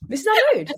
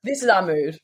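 First: "mood" in a high sing-song squeal; high playful. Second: Said in the usual way. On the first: Shown as a demonstration.

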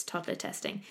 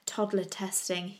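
First: Whispered aside. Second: Said in the usual way. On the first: Shown as a demonstration. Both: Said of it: "I've just written in my notes".

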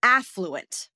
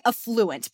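First: Slow affluent, AFF-loo-ent; affluent, first-syllable stress. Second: Slow affluent, uh-FLOO-ent; affluent, second-syllable stress. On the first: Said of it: "but it's affluent". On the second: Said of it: "I don't put the emphasis on the first syllable". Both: Shown as a demonstration.

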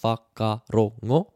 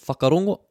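First: "Whakarongo" slowly in four beats, wha - ka - ro - ngo; split into syllables. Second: Said in the usual way. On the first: Shown as a demonstration. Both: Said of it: "more than two syllables".

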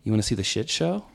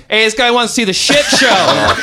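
First: Soft, low, calm offer; calm, quiet invite. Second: High, loud laughing shout; loud call out. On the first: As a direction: ask it casually, quietly. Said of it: "very calm". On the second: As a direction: yell it across the store. Friend shouts to bloody guy. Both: Retold or imitated.

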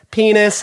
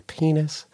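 First: High, loud shout of penis. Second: Quiet penis. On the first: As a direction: blurt it out loud. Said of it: "how loudly you could say". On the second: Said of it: "and you go". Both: Retold or imitated.

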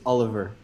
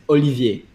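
First: Oliver said the English way, ending in -ver; easy English version. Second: Olivier said in French, ending in -vyay; real French pronunciation. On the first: Giving Americans the easy version, Oliver pronounced the English way. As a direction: say Oliver as an ordinary English name. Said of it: "the easy version is just Oliver". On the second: Showing the host the real name, Olivier pronounced in French. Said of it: "the real way to say it". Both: Shown as a demonstration.

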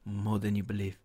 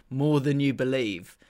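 First: Low, hushed half-whisper; Pep. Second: Said in the usual way. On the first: Retold or imitated. Podcaster imitating a manager's whispered catchphrase, low and soft. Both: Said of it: "Pep's whispered".

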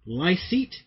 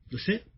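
First: Lycett said LIE-seet, rising; attempted pronunciation. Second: Lycett said luh-SET, questioning; attempted pronunciation. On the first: Host guessing at comedian's name, Lycett as LIE-seet. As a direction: try Lycett with a long "eye" first. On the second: Host doubting the comedian's name, Lycett as luh-SET. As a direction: try Lycett with short vowels, ending in "set". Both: Shown as a demonstration. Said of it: "we never pronounce his names".

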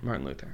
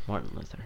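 First: Low, soft deadpan echo. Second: Low, soft deadpan catchphrase. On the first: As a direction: echo it flatly. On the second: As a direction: mutter the running gag. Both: Pretend.

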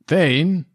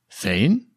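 First: Calling out. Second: Said in the usual way. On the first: Acted. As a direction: call out the dog's name again across the yard. NPC calls again for dog.

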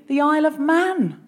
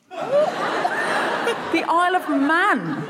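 First: Said in the usual way. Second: The Isle of Man stretched very slowly, higher, with a laugh; drawn out. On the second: Shown as a demonstration.

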